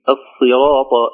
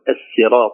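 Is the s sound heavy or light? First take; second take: heavy; light. First: The s sound is heavy and emphatic. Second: The s sound is light and plain. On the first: The speaker calls it right. "تفخم الصاد" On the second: The speaker calls it wrong. "ولا نقول الصراط"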